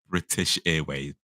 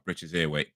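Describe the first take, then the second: First: The T in British is clearly pronounced. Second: The T in British is dropped.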